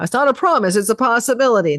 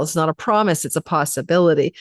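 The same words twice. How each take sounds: First: Mock AI voice. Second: Said in the usual way. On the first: Shown as a demonstration. Astrologer mocking AI-speak to viewers, in mock robotic voice. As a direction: parrot it like a chatbot disclaimer. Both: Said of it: "I sound like A I right now".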